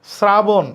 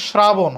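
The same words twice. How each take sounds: First: "শ্রাবণ" as srabon, with a plain S; English-like S. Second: "শ্রাবণ" as shrabon, starting on sh; wrong SH onset. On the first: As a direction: start "শ্রাবণ" on s, not sh. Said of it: "ইংরেজি এস এর মতো হবে". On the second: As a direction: begin "শ্রাবণ" with a sh. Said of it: "হবে না". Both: Shown as a demonstration.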